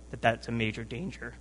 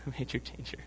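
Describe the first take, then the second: First: Said in the usual way. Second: Quick, soft repeat through a laugh. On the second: Real, not acted. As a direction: giggle through the repeat of "A major danger". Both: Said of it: "I'm sorry".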